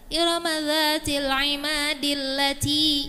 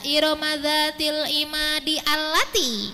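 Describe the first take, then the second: First: The words run together and the 'a' is dropped. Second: The 'a' of allati is sounded separately. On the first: The speaker calls it right. "kalau ayat tujuh dan delapan kita wasolkan" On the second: The speaker calls it wrong.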